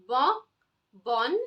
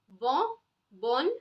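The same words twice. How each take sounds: The two takes are said the same way.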